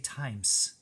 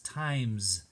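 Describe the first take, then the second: First: The word ends with a hissing S sound. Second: The word ends with a buzzing Z sound. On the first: The speaker calls it wrong. "We don't say" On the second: The speaker calls it right. "It's making a Z sound right there"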